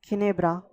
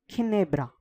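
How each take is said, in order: The two takes are said the same way.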